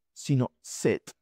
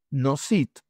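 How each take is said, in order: First: "set" slow, with an open short e; correct vowel demo. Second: "sit" with a short i, as the wrong take; wrong vowel demo. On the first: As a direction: stretch out "set" carefully. (pronunciación correcta: "set", despacio) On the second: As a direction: say "sit" to show the mistake. (pronunciación incorrecta: "sit") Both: Shown as a demonstration.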